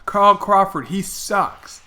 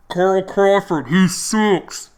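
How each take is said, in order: First: Imitating a heckler's high call, clearly worded; megaphone heckler. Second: Imitating a muffled, raised megaphone heckle. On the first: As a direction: punch the name loud and high, like heckling a passer-by. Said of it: "make your voice really loud". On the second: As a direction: call it out high and loud, vowels muffled like through a megaphone. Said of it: "I'm, like, muffled 'cause we're close".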